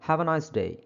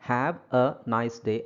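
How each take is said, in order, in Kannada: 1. ಪದಗಳನ್ನು ವಿರಾಮವಿಲ್ಲದೆ ಒಟ್ಟಿಗೆ ಸೇರಿಸಿ ಹೇಳಲಾಗಿದೆ. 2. ಪ್ರತಿ ಪದವನ್ನು ಬಿಡಿಯಾಗಿ, ಮಧ್ಯೆ ವಿರಾಮ ಕೊಟ್ಟು ಹೇಳಲಾಗಿದೆ. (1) "ಕೂಡಿಸ್ಬಿಟ್ಟು ಹೇಳಿ ಅದನ್ನು" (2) "ಸಪ್ರೇಟಾಗಿ ಹೇಳೋ ಅವಶ್ಯಕತೆ ಇಲ್ಲ"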